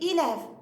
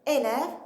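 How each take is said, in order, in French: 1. La première voyelle sonne comme i. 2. La première voyelle est un son e. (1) "il dit élève" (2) "au lieu de dire élève"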